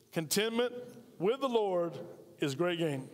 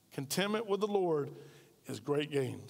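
First: Spaced phrases, "great" pressed, falling at the end; congregation call-and-response. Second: Each phrase spaced out, weight on great; slow emphatic saying. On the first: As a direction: chant it back, one phrase at a time. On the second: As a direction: lay it down slowly, leaning on "great". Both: Shown as a demonstration. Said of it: "Say it with me".

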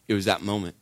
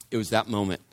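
No difference in how they are said.

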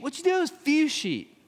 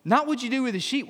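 First: "those few sheep" sneered high and mocking; sarcastic stress on those few. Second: Said in the usual way. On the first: Shown as a demonstration. Pastor showing Eliab's scorn to the congregation, mocking stress. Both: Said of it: "You hear that?".

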